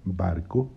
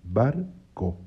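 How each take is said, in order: First: Said in the usual way. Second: "barco" broken as "bar... co", with a clear pause; split into syllables. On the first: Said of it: "La palabra barco tiene dos sílabas". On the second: Shown as a demonstration. Teacher showing the two syllables, "barco" said in separate pieces. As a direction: say "barco" one syllable at a time. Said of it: "tiene dos sílabas".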